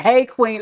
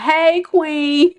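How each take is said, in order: First: Said in the usual way. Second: Higher, mock smooth-talking suitor; hammed-up flirty guy greeting. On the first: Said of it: "That's my favorite". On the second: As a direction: tease a cheesy pickup line. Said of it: "folks talking about".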